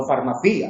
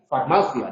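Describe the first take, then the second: First: "farmacia" as the error, stress on the "ci"; wrong stress. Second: "Farmacia" stressed on the "ma"; "Farmacia" as the correct form, stress on the "ma". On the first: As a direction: give "farmacia" the mistaken stress on the "ci", rising at the end. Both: Shown as a demonstration. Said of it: "no farmacia".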